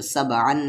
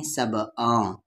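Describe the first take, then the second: First: सब अन ending on a plain, full n; clear N, no hiding. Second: सब अ ending in a nasal hum instead of n; hidden nasal N. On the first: Teacher giving the wrong reading, सब अन with plain n. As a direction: say सब अन with the tongue closing on n. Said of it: "तो सब अन नहीं". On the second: Teacher showing ikhfa before sheen, सब अ hummed nasally. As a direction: nasalise the vowel ending सब अ, tongue not closing. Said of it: "शीन हरूफ इख्फा है". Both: Shown as a demonstration.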